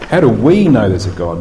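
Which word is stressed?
we. The stress falls on the word "we". It asks whether different groups experience God differently.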